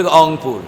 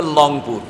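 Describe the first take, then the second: First: অংপুর starting on the vowel, no R; dropped R. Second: লংপুর with a clear L replacing the R. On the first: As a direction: say Rangpur as অংপুর, as some locals do. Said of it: "কেউ বলতে অংপুর". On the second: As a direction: say Rangpur as লংপুর, as other locals do. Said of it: "কেউ বলতে কবে লংপুর". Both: Retold or imitated.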